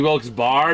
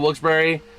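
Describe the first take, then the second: First: The second part sounds like 'bar', one syllable. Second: The second part sounds like 'Barry', two syllables. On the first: The final E is treated as silent. "because I'm so used to silent E's" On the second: This is how the name is actually said. "was pronounced Barry"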